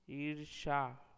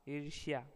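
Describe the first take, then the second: First: ईर्ष्या without y, "eersha"; ईर्ष्या ending in plain "sha"; wrong pronunciation. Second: Said in the usual way. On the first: Shown as a demonstration. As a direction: drop the y glide from ईर्ष्या. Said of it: "अशुद्ध शब्द". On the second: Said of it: "शुद्ध शब्द".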